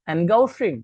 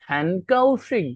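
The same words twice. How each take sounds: First: হ্যানগাওশিং with a voiced G in the middle; G pronunciation. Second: হ্যানকাওশিং with a hard unvoiced K in the middle; K-like pronunciation. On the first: Teacher giving an example of written G, voiced G. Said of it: "জিটার ক্ষেত্রে আমরা পড়ছি গো". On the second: Teacher showing how the G really sounds, like K. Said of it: "ওটার উচ্চারণ কিন্তু হ্যানকাওশিং". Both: Shown as a demonstration.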